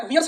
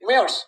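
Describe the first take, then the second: First: Wears said as weers, with a long ee and a glide; wrong pronunciation. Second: Wears said as wairs, one short open vowel; correct pronunciation. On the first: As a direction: wears drawn out as wee-ers, the way not to say it. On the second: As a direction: wears clipped to a single wair sound, the right way. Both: Shown as a demonstration. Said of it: "wears नहीं बोलते हैं".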